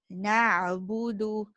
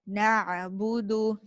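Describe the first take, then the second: Both takes have the same delivery.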